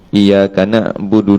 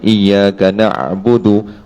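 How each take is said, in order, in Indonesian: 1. Bunyi ain dibuat lebih ke depan, lebih dangkal. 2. Bunyi ain berasal dari jauh di dalam tenggorokan. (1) "duduk sini saja" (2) "terasa bergerak kita punya kerongkong"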